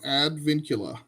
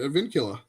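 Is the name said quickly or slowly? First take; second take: slowly; quickly. First: The name is said slowly. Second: The name is said quickly.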